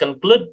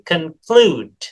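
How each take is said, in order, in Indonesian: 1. Vokal kedua pendek dan terpotong. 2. Vokal kedua panjang dan ditarik. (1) "this is not conclude" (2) "ya diayun"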